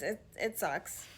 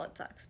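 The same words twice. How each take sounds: First: Said in the usual way. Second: Low, whispered resigned repeat. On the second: Real, not acted. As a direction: drop to a whisper. Quiet repeat of it sucks.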